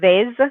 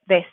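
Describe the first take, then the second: First: The word ends with a buzzing Z sound. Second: The word ends with a hissing S sound. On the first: The speaker calls it wrong. "not a hard Z sound. So it's not vez" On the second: The speaker calls it right. "a soft S sound"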